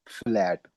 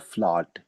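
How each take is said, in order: First: The vowel sounds like the 'a' in cat. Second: The vowel is an open 'ah' sound. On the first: It is read the English way. "English के हिसाब से हम पढ़ेंगे ना तो ये लफ्ज होगा फ्लैट" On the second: It is read the German way. "German के हिसाब से पढ़ेंगे तो ये होगा फ्लाट"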